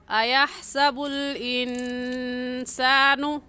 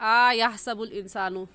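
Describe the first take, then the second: First: The first vowel is kept short. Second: The first vowel is drawn out long. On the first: The speaker calls it right. "इस हरकत को खींचेंगे नहीं बल्कि आराम से पढ़ेंगे" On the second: The speaker calls it wrong. "इस हमज़ा को खींच जाते हैं"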